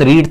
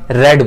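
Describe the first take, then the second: First: The vowel is long, as in 'need'. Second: The vowel is short, as in 'bed'. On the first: It is the present form of the verb. "Verb की first form थी" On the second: It is the past form of the verb. "बस बोलने में रेड बोला जाता है"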